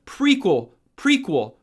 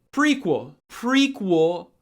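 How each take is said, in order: Both takes have the same delivery.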